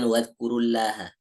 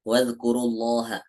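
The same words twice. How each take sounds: First: The L in Allah sounds light and thin. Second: The L in Allah sounds heavy and full. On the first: The speaker calls it wrong. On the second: The speaker calls it right. "lamnya tebal"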